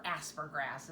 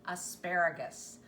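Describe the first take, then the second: First: "aspergrass", ending like the word grass; variant pronunciation. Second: Said in the usual way. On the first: Shown as a demonstration. Cook quoting how some people say it, "aspergrass" as a folksy variant. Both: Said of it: "as some people want to say it".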